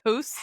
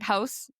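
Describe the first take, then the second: First: The vowel is said as a rounded 'oo'. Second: The vowel is said as a plain 'ow'.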